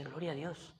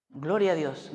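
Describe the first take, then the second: First: Very soft, under the voice; hushed retold reaction. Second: Said in the usual way. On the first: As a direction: say it quietly, almost to yourself. Retold private reaction to wife.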